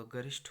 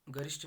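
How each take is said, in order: First: गरिष्ठ ending in aspirated ठ; correct pronunciation. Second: गरिष्ठ ending in unaspirated ट; wrong pronunciation. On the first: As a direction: say गरिष्ठ as "garishth", with a puff. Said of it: "होगा". (गरिष्ठ के अंत में महाप्राण ठ बोलें) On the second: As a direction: say गरिष्ठ as "garisht", no puff. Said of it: "नहीं होगा". (गरिष्ठ के अंत में ट बोलें) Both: Shown as a demonstration.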